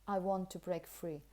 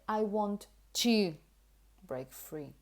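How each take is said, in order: First: The word 'to' is said in a weak form. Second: The word 'to' is said in its full form. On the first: The speaker calls it right. "In connected speech, unless you wanted to emphasize it, you would probably say" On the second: The speaker calls it wrong. "So you wouldn't say"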